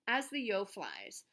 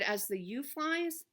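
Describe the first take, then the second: First: The third word rhymes with 'crow'. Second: The third word sounds like 'you'. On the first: The speaker calls it right. "it's actually pronounced as the Yo flies. ... Yo rhymes with crow" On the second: The speaker calls it wrong. "I mispronounced the name last time. So I said"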